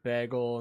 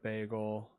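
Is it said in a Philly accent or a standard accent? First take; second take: Philly; standard. First: It is said with a Philly accent. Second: It is said with a standard accent.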